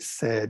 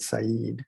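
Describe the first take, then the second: First: It sounds like the ordinary English word said. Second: It sounds unlike the ordinary English word said. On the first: The speaker calls it wrong. "you would not say said" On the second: The speaker calls it right. "you would say Said"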